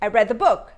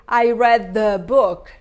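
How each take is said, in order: First: The word 'the' is unstressed and reduced. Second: The word 'the' is stressed and fully pronounced. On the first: The speaker calls it right. "Because I don't stress it, I reduce it" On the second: The speaker calls it wrong. "So I don't say"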